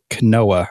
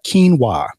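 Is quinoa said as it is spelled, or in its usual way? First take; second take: as spelled; usual. First: It is said the way its spelling looks. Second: It is said with its usual spoken pronunciation. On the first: The speaker calls it wrong. "that's not how it's pronounced" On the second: The speaker calls it right. "that's how you pronounce it"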